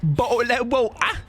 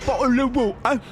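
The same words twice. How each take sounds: First: Higher posh British "Bottle of water"; hammed-up British "Bottle of water"; mock British accent. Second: "Bottle of water" glottal t's, high and plummy; high mock British "Bottle of water"; exaggerated British accent. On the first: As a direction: say "Bottle of water" with dropped t's, high and plummy. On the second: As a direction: lean into "Bottle of water" as a Cockney-posh cartoon. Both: Shown as a demonstration. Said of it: "Any words you'd like to say?".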